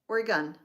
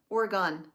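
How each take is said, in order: First: The last syllable sounds like 'gun'. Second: The last syllable does not sound like 'gun'. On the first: The speaker calls it right. "I have to remember to say the G U N" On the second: The speaker calls it wrong. "I always say it wrong twice"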